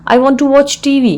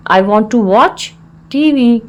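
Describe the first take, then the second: First: Said in the usual way. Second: Measured, with a clear mid-phrase pause; broken into parts. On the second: Shown as a demonstration. Teacher repeats the phrase for learners, in separated parts.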